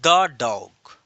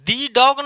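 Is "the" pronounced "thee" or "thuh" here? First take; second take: thuh; thee. First: "The" is said with a short, weak vowel. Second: "The" is said with a long "ee" vowel. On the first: The speaker calls it right. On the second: The speaker calls it wrong. "दी dog नहीं"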